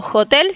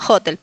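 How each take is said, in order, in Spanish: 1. El acento no está en la primera sílaba. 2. El acento está en la primera sílaba. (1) "no hotel" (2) "Poner el acento en la primera sílaba"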